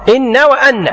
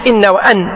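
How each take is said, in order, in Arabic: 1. أصوات النون مشددة وممدودة أطول. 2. أصوات النون قصيرة ومفردة.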